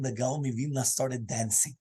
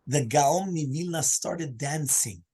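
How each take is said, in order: First: Said in the usual way. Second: "The Gaon Mivilna started dancing" said slowly, each word drawn out for weight; slow repeated emphasis. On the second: Shown as a demonstration.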